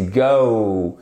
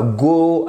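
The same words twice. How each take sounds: First: "go" drawn out, OH gliding to OO; English diphthong in GO. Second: "go" with pure rounded O; French-style GO. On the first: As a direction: slowly open the O of "go" into OH-OO. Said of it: "non, c'est go". ("go" lent, diphtongue anglaise bien ouverte) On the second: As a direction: purse the lips for a French O in "go". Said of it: "le bout de la bouche à la française". ("go" à la française, du bout des lèvres) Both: Shown as a demonstration.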